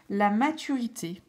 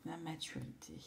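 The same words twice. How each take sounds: First: Said in the usual way. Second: Whispers the word to herself; whispered. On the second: Real, not acted. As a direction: softly breathe it like a secret. (chuchoté pour soi-même)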